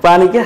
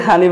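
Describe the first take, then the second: First: Said in the usual way. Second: "হানি" opening on h instead of p; Noakhali pronunciation. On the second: Shown as a demonstration. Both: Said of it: "পানিকে হানি বলে".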